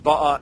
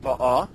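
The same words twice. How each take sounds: First: Ba'a stressed on the first syllable; accent mila'el. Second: Ba'a stressed on the last syllable; accent milra. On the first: Teacher contrasting two tenses, ba'a stressed on first syllable. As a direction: hit the BA in ba'a. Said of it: "have the accent mila'el ba'a". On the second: Teacher contrasting two tenses, ba'a stressed on last syllable. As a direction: hit the final A in ba'a. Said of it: "milara ba'a". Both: Shown as a demonstration.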